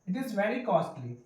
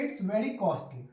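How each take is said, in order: First: 'It is' is said as two full words. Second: 'It is' is shortened into one syllable.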